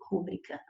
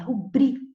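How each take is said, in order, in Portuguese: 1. A sílaba tônica está na primeira sílaba. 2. A sílaba tônica está na segunda sílaba. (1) "Ela não é pró-paroxítona" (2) "ela é paroxítona, é rubrica"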